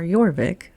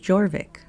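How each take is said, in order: First: It is said with the Viking pronunciation. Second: It is said with the Anglian pronunciation. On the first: "the Viking pronunciation" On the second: "the Anglican pronunciation"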